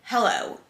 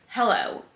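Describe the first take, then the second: First: It is said in a negative tone. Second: It is said in a negative tone.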